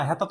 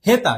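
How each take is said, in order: First: হেতা with a closed 'e' as in 'heta'; correct pronunciation. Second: হেতা with a wide open first vowel like 'hæta'; mock the wrong হেতা with an open 'æ'; wrong pronunciation. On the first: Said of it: "কেউ তো এখন বলে হেতা". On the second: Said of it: "হেতা তো কেউ বলো না". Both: Shown as a demonstration.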